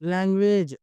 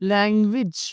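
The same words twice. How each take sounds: First: The last syllable ends without a short 'ij' sound. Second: The last syllable ends with a short 'ij' sound. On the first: The speaker calls it wrong. "అలా కాదండి" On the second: The speaker calls it right. "ఇజ్ అని చెప్పాలి"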